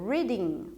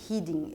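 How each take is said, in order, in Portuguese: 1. O R é um som suave do inglês. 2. O R é um som gutural do português. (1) "eu leio reading" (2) "Eu não leio reading"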